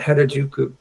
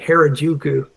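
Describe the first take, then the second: First: It is said with a Japanese pronunciation. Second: It is said with an American English pronunciation.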